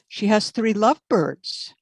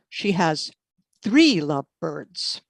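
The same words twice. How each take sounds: First: The word "lovebirds" carries the stress. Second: The word "three" carries the stress. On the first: Not cockatiels. "not cockatiels" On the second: Not just two. "not just two"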